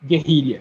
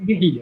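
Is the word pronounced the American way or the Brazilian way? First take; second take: Brazilian; American. First: It is said with a Brazilian Portuguese pronunciation. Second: It is said with an American English pronunciation. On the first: "Here in Brazil, it will be guerrilla" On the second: "the English version ... like the wrong way the Americans pronounce"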